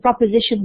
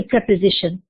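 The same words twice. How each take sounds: First: PROPOSITION with an O in the first syllable. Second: PREPOSITION with an E in the first syllable. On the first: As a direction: say "proposition", first syllable "prop", not "prep". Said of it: "with an O". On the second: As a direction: say "preposition", first syllable "prep", not "prop". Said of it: "not a preposition". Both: Shown as a demonstration.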